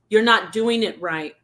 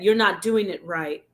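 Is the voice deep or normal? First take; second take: normal; deep. First: It is said in a normal speaking voice. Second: It is said in a very deep voice. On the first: "it didn't have this voice" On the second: "it's like super deep"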